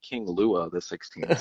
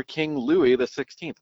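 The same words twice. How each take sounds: First: Lua said as "LOO-uh"; Lua, the swallowed local vowel put on the king; mock wrong Louis. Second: Louis said as "LOO-ee"; Louis pronounced the king's way, "LOO-ee"; Louis with clear ee. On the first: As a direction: slowly say Lua for Louis, ending in "uh". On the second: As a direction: say Louis with an "ee" ending. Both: Shown as a demonstration. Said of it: "not King Lua the Sixteenth".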